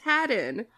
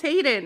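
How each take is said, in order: First: "Haddon" with a short A, as in "had"; short A pronunciation. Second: "Hayden" with a long A, as in "hay"; wrong pronunciation, long A. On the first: Host correcting co-hosts on a surname, "Haddon" with short A. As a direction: say "Haddon" with first syllable like "had". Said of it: "It's pronounced Haddon". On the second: Host correcting co-hosts on a surname, "Hayden" with long A. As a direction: say "Hayden" with first syllable rhyming with "day". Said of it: "is not pronounced Hayden". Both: Shown as a demonstration.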